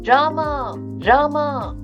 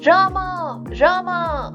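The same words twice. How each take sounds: First: The name is called loudly. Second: The name is called very loudly.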